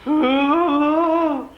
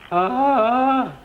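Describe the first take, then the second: First: It is said with more passion. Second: It is said plainly, without much passion.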